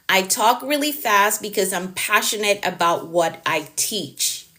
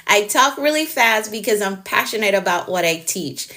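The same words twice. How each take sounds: First: Deliberately slowed. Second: Said in the usual way. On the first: Shown as a demonstration. Slows down for viewer, then repeats.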